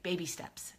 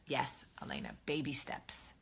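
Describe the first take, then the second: First: Said in the usual way. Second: Hushed aside, much softer; whispered reassurance to a viewer. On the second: Real, not acted. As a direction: breathe it like a secret.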